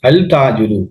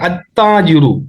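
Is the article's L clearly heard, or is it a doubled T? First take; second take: clear L; doubled T. First: The L is pronounced clearly before the T. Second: The L merges into a doubled T sound. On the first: The speaker calls it wrong. "சில சிலர்கள் அல் அல் தாஜூர்னு வாசிப்பாங்க" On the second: The speaker calls it right. "ஆனா எப்படி வாசிக்கிறது?"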